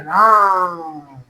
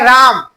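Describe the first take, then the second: First: The vowel is drawn out for a long time. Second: The vowel is said at normal length. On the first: "एक हो गया राम, ऐसा करिए" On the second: "एक हो गया राम नॉर्मल"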